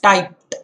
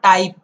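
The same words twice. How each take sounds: First: The word ends with a T sound. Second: The word ends with a D sound. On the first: The speaker calls it right. "Make the T sound and you're perfect" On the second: The speaker calls it wrong. "It's not typed"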